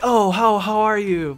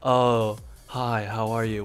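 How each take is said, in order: First: It is said with strong, dramatic emotion. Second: It is said flatly, with little emotion.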